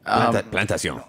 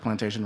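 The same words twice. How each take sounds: First: It is said in a French accent. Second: It is said in a plain English accent.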